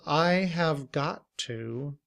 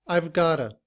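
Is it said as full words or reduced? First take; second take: full; reduced. First: Each word is said fully and separately. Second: The words are blended into a short reduced form. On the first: "we would combine all of these words" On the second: "In reduced form"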